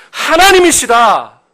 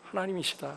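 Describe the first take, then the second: First: High, loud, drawn-out declaration; slow, ringing sermon climax; loud proclamation. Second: Very soft, falling echo of a proclamation; quiet, reverent restatement; hushed affirmation. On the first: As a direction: proclaim the answer at full preaching force. Preacher proclaims the answer, then softens. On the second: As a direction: let it drop almost to nothing. Preacher repeats the answer softly. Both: Real, not acted.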